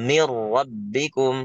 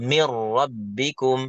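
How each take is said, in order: Both takes have the same delivery.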